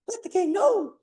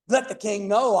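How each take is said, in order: First: The voice is higher and softer. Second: The voice is bold and strong. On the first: The speaker is a eunuch and less imposing. "We might want to change the tone of his voice, maybe, if he is eunuch" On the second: The speaker is confident and commanding. "him boldly saying"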